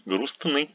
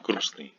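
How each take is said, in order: First: Грустный with the т clearly sounded; cluster fully pronounced. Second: Грустный with a silent т, as "grusny"; dropped T. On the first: Teacher showing how грустный does not sound, т fully pronounced. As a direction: say every consonant in грустный, т before н included. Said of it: "sounds not". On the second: Teacher showing learners how грустный really sounds, т dropped. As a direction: leave the т out of грустный. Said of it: "without T". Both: Shown as a demonstration.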